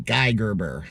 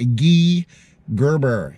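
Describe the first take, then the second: First: The name is said the American way. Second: The name is said the Canadian way.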